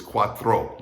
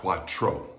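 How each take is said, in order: First: "cuatro" as kwat-thro; TR as THR. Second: "cuatro" as kwat-tro, no h; wrong hard TR. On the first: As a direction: say "cuatro" with th-r as in three. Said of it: "T R in Spanish sounds like that". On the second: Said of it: "not cuatro". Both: Shown as a demonstration.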